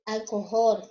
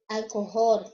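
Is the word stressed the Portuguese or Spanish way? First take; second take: Spanish; Spanish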